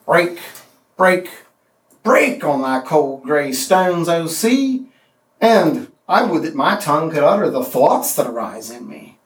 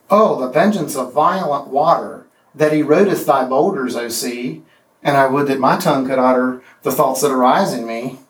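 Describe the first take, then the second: First: Heavy, deliberate recitation; poem reading. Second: Lilting, rollicking recitation; deliberately weaker lilting reading; weak anapestic version. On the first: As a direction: read Tennyson, hammering the three breaks. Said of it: "Here's the Molossus". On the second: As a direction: read the rewrite with a bouncy lilt. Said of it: "the power drains away". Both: Shown as a demonstration.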